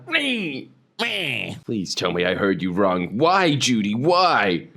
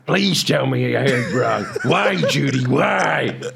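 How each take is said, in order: First: It is said in a put-on twink voice. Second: It is said in a seedy pornographer voice.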